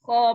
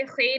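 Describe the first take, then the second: First: खो as full, rounded "khaw"; rasped kh opening into a long rounded vowel in खो; correct Arabic reading. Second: हे as throaty "khay"; rasped kh, then an "ay" vowel in हे; wrong Urdu reading. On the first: Teacher modelling the letter, full-mouthed "khaw". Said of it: "खो पढ़ेंगे". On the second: Teacher warning students, Urdu-style "khay". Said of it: "इस तरह से हे नहीं पढ़ना". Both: Shown as a demonstration.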